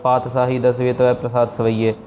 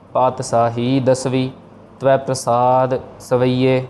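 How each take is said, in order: First: The words run together without any pauses. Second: There is a short pause after each word. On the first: The speaker calls it wrong. "ऐसे नहीं कहना" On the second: The speaker calls it right. "हर एक के बाद थोड़ा थोड़ा हमने gap देना है"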